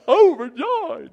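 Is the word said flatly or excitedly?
excitedly. It is said with real excitement.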